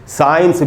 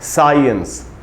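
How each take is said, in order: First: No weak vowel follows the first syllable. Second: A short weak vowel follows the stressed first syllable. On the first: The speaker calls it wrong. "बिल्कुल गलत उच्चारण है" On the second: The speaker calls it right. "आधा अ भी है... सा में जो आ है उसी पर स्ट्रेस है"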